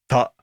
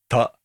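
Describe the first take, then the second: First: The t releases with a crisp, sharp burst. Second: The t releases with a soft, loose burst. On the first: The speaker calls it right. "もっとシャープに弾けたらいいのかな" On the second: The speaker calls it wrong. "なんかボワンと弾けてる感じがしましたね。"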